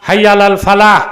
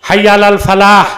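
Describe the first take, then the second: The two takes are said the same way.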